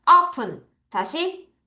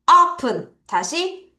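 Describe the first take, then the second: No difference in how they are said.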